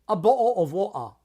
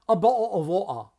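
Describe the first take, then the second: No difference in how they are said.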